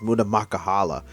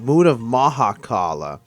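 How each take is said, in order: First: The name's second syllable starts with a k sound. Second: The name's second syllable starts with an h sound. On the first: The speaker calls it wrong. "I kept mispronouncing it as" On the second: The speaker calls it right. "no, it's"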